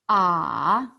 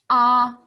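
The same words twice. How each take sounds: First: The pitch dips low and then rises. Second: The pitch stays high and level. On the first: "三声, is third tone, thinking sound" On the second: "一声, first tone, 一声. That's an open mouth sound"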